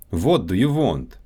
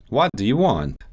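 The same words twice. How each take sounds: First: Russian accent, "What" and "want" with a rounded "wo" vowel; Russian accent, say "What do you want" as "vot do you vont". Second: Said in the usual way. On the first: Shown as a demonstration. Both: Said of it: "W and V sounds".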